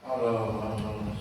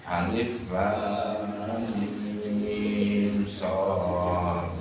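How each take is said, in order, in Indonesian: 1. Huruf-hurufnya dibaca menyambung menjadi satu kata. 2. Setiap huruf disebut dengan nama lengkapnya. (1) "Ini baca alamas" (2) "Harusnya apa?"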